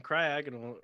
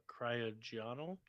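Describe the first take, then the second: First: Cryogonal as cry-AG-un-ul; trying a pronunciation. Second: Cryogonal as cry-oh-JON-al, rising; soft, unsure cry-oh-JON-al for cryogonal; alternative pronunciation. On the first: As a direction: say cryogonal with a short stressed "ag". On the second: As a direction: try cryogonal slowly with a soft g, questioning. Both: Real, not acted. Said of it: "we were trying to pronounce".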